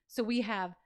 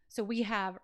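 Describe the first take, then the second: Both takes have the same delivery.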